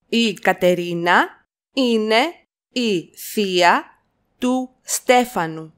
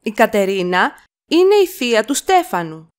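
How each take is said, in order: First: Slow it down for copying; slow chunked repeat. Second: Said in the usual way. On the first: Shown as a demonstration. Teacher to learners, slow chunked model. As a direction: split into two chunks with a pause. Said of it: "teacher repeats in chunks". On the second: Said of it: "teacher models sentence".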